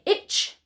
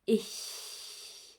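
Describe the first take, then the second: First: The word ends in a tch sound. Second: The word ends in a soft breathy hiss. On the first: The speaker calls it wrong. "So we don't say itch" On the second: The speaker calls it right. "but a softer ich"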